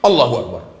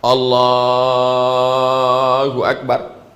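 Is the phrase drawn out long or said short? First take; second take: short; long. First: The phrase is said short and quick. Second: The phrase is drawn out long.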